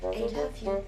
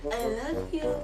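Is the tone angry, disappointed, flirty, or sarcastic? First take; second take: disappointed; flirty. First: It is said in a disappointed tone. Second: It is said in a flirty tone. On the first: "Disappointed muna" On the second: "next is flirty"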